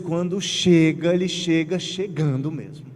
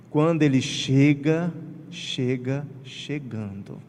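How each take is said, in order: First: Ele chega chegando mesmo said with a stress on ele; an emphatic ele chega chegando; bold refrain. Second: Slow down and sink chega chegando; a hushed slow chega chegando; emphatic refrain. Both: Shown as a demonstration.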